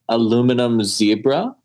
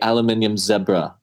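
First: It is said with an American pronunciation. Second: It is said with a British pronunciation.

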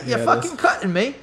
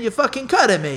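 First: It is said in an imitated Irish accent. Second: It is said in the speaker's ordinary accent.

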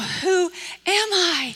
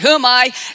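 First: It is said slowly and thoughtfully. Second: It is said quickly and carelessly. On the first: The question is being seriously considered. "the women were very thoughtful" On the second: The question is not being taken seriously. "saying it really fast and not caring"

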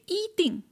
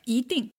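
First: The syllable 一 has a high level tone. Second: The syllable 一 has a rising tone. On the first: The speaker calls it wrong. "I didn't say 一定" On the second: The speaker calls it right. "then you change it to second tone"

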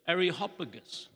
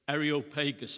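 First: It is said in a bouncy American accent. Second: It is said in a British accent. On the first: "The Americans kind of put a skip in their step when they say that" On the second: "The British would say"

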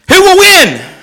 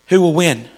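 First: It is said with excitement. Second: It is said with doubt.

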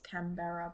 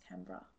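First: The name is said just as it is spelled. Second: The name is said the local way, unlike spelling. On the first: The speaker calls it wrong. "It looks like it's Canberra" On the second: The speaker calls it right. "but it's Canberra"

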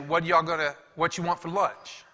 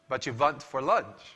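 First: The words start with a clear W sound. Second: The words start with a V-like sound. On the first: This is how it is said in the United States. "In the United States, everybody knows you say" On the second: This is how it might be said in Russia. "If you go to maybe say Russia, you say"

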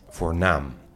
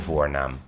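First: The stress is on the second syllable. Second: The stress is on the first syllable. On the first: It means distinguished or important. "je hebt het woord voornaam" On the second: It means the name you are called by. "Wij leggen de klemtoon deze aflevering op de eerste lettergreep"

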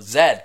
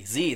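First: The letter name is said the Australian way. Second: The letter name is said the non-Australian way. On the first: "They go Z because they're cool and they're special" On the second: "They don't say Z"

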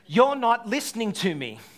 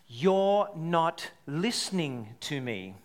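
First: It is said with more intensity. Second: It is said calmly, without intensity.

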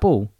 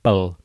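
First: The word is said quickly inside a question. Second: The word is said slowly with heavy emphasis. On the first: "whenever you say it quickly, like I say" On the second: "he emphasises whenever he says bull, he's like"

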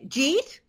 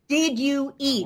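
First: It is slurred into one New York syllable. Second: It is said in full, word by word.

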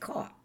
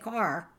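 First: It is said in a Louisiana Cajun accent. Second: It is said in a standard American accent.

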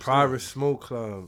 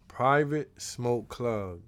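First: The phrase is said at a normal pace. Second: The phrase is said slowly and deliberately.

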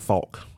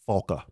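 First: The name ends on a consonant k sound. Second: The name ends with a final vowel sound. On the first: The speaker calls it wrong. "Everybody mispronounces her name" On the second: The speaker calls it right. "That's how it's pronounced"

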